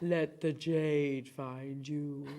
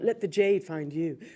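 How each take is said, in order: First: It is said in a very deep voice. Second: It is said in a normal speaking voice.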